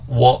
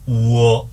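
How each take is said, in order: First: The glide is said quickly as one sound. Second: The glide is drawn out into two parts. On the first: "짧게 발음하면" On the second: "천천히 발음하면 그렇다는 얘기고"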